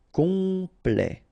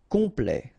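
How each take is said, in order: First: "complet" with a long, higher first syllable; drawn out. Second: Said in the usual way. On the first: Shown as a demonstration. French teacher modelling for learners, "complet" drawn out. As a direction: stretch "complet" into com-plet.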